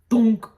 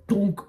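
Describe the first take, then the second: First: A sudden loud, higher "thunk"; loud thunk sound. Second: Said in the usual way. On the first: Retold or imitated. Reviewer mimicking the film's final impact, loud and sudden.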